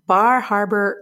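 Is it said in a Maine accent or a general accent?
general accent. It is said in the speaker's general accent.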